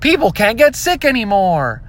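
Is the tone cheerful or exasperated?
cheerful. It sounds cheerful, like good news.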